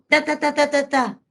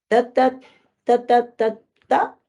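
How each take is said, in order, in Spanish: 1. El balbuceo tiene entonación de regaño y mando. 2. El balbuceo tiene entonación de súplica y petición. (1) "ahí está regañando" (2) "Está pidiendo permiso"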